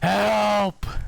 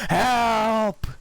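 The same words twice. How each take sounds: First: The word is said with lively, varied pitch. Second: The word is said in a flat monotone. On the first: The speaker calls it right. "it needs to be more like" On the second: The speaker calls it wrong. "like with the monotone voice"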